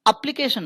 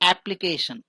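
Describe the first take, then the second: First: The first vowel sounds like the one in bed. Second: The first vowel sounds like the one in cat. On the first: The speaker calls it wrong. "एप्लीकेशन नहीं है" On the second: The speaker calls it right. "शुरू में क्या लिखा हुआ है? या symbol"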